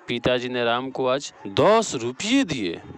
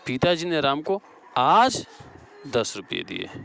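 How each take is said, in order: First: The stress falls on दस रुपये. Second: The stress falls on आज. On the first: "यहाँ दस रुपये हो जाएगा।" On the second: "यहाँ आज हो जाएगा।"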